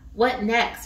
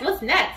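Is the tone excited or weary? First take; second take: weary; excited. First: It sounds weary and negative. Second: It sounds eager and upbeat. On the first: The person dreads what will happen next. The speaker calls it wrong. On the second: The person is ready and happy for what comes. The speaker calls it right.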